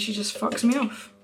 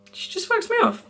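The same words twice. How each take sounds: First: Said in the usual way. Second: Very high, squeaky disbelief; mock outrage. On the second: Complaining to viewers about a friend's snub, mock-outraged squeak. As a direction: repeat it way up high, indignant.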